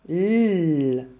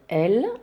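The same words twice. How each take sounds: First: Only the bare consonant sound is made. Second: The letter is said by its full name. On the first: "elle fait le son L" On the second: "elle s'appelle L"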